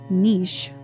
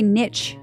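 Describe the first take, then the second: First: The word is said without a t sound. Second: The word is said with a t sound. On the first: The speaker calls it right. "you say niche. The proper way" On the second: The speaker calls it wrong. "you don't say niche"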